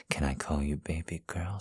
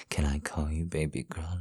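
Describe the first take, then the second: First: Said in the usual way. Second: Hushed breathy whisper. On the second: Acted. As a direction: whisper the question. Repeats question as whisper.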